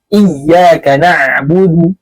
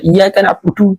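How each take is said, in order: First: "iyyaka na'budu" read slowly with clean, unrounded vowels; the careful correct "iyyaka na'budu"; correct pronunciation. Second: "iyyaka na'budu" with the lips pushed forward and rounded; the overrounded wrong "iyyaka na'budu"; wrong pronunciation. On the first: Teacher shows students the correct slow reading. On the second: Teacher shows students the wrong rounded reading. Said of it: "Nggak boleh". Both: Shown as a demonstration.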